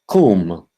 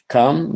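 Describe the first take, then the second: First: The vowel sounds like the vowel in 'doom'. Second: The vowel sounds like the vowel in 'sun'. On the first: The speaker calls it right. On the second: The speaker calls it wrong.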